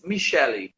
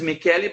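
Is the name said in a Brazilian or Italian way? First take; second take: Brazilian; Italian. First: The name is said with Brazilian pronunciation. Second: The name is said with Italian pronunciation. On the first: This is how it is said in Brazil. "but in Brazil is" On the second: This is how it is said in Italy. "like in Italy, uh, the pronunciation is"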